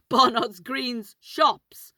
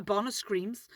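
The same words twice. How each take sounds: First: "Barnard's Green's" slow, each word separated; careful correction. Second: "Screams" said with an m at the end; slip of the tongue. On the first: Storyteller correcting a name slip, slow careful "Green's". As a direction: spell out "Green's" slowly with a clear n. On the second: Storyteller fumbling the shop parade's name, slip into "Screams". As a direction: run "Barnard's Screams" together with a final m. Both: Real, not acted.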